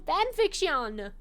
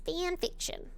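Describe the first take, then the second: First: The word is said with a French-sounding accent. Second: The word is said with an ordinary English accent. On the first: The speaker calls it wrong. "Why do I keep saying it like that? Like I'm French" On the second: The speaker calls it right. "It's fanfiction"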